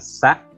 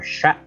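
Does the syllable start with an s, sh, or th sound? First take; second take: s; sh. First: It starts with a plain s sound. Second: It starts with a sh sound. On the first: "Bukan sa" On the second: "atau sya"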